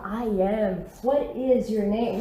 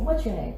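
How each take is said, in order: First: Slow "I am", "what is", every word separate; textbook-careful, nothing joined in "what is"; uncontracted forms. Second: "What's your" run together smoothly; quick native-style "What's your name?"; native contraction. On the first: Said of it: "o certo não seria mais falar". ("what is" por extenso, devagar) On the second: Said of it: "eles falam assim". ("What's" contraído, como os nativos falam) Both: Shown as a demonstration.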